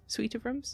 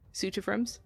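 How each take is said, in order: First: "Suite" pronounced like "sweet", questioning. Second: "Suite" pronounced like "suit", questioning. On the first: Game master checking the word, "Suite" said like "sweet". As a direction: say "Suite" with a "sw", rhyming with "feet". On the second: Game master unsure of the word, "Suite" said like "suit". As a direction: say "Suite" to rhyme with "boot", as a question. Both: Shown as a demonstration. Trying two ways to say suite.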